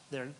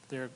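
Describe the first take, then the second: No difference in how they are said.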